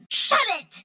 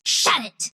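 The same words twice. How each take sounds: First: High, exclaimed "shut it"; high-pitched telling-off. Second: Said in the usual way. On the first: Acted. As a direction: tell them off with pitch way up. Alternate takes telling someone off.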